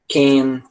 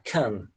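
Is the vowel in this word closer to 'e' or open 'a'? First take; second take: close to e; open a. First: The vowel sounds close to 'e'. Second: The vowel is an open 'a' sound. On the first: "a gente sempre aprende a falar com som de E" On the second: "como se fosse um A, um A aberto"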